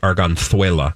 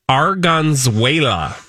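First: The name is said with Spanish-style sounds. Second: The name is said with English-style sounds.

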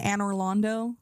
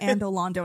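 First: The middle is pronounced with an 'r' sound. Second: The middle is pronounced with a 'd' sound. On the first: The speaker calls it right. "I'm finally saying it correctly" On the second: The speaker calls it wrong. "I kept calling it Andolando"

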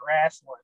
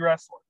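First: It is said in a hard Southern accent. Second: It is said in the speaker's plain accent.

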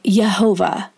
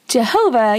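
First: The name begins with a Y sound. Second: The name begins with a J sound. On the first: This is closer to how it was said in Hebrew. "you would say Yehovah" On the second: This is the English form of the name. "translates to a J in English"

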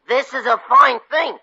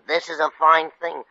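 First: It is said loudly. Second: It is said fairly quietly.

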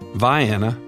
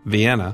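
First: It is pronounced the local Southern way. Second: It is pronounced the usual standard way. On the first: This is how the Georgia town is named. The speaker calls it right. "it's pronounced a distinctly southern way" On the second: This is how the European city is named. The speaker calls it wrong. "not Vienna"

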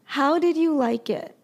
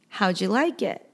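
First: Each word is said clearly and in full. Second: The words are shortened and run together.

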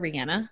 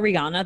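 First: The name is said the way Brits say it. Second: The name is said the usual non-British way. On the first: This is how British people say the name. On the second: This is how most people say the name.

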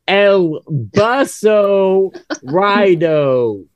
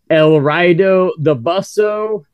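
First: It is said louder and more slowly. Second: It is said at normal loudness and pace.

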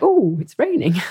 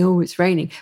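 First: It sounds delighted and excited about the rain. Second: It sounds disappointed and gloomy about the rain.

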